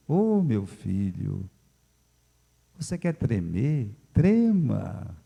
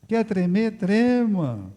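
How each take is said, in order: First: Slow, calm fatherly advice; a touch of calm pastor Félix. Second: Lightly voiced pastor, higher; mock pastor. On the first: Retold or imitated. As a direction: soothe like an unhurried elder. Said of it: "Com aquela calma". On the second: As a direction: toss the advice back with amusement. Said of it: "ele olhou pra mim".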